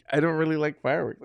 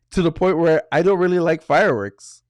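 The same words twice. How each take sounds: First: Laughing. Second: Said in the usual way. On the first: Real, not acted. Teller repeats his grudge to the host, laughing. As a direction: laugh it off as you say it again.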